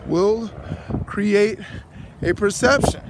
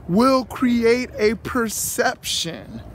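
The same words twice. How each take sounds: First: "will", "create", "a perception" each set apart by pauses; word by word. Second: Slow, leaning on "will create a perception"; slow emphasis. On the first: Preacher hammering his point, "will create a perception" word by word. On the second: Preacher to viewers, stretching "will create a perception". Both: Real, not acted.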